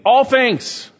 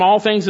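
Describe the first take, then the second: First: ALL hit high and loud, falling on things; emphatic stress. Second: Said in the usual way. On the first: Shown as a demonstration. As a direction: punch the word All, then let it fall. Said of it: "It's emphatic". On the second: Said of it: "is emphatic".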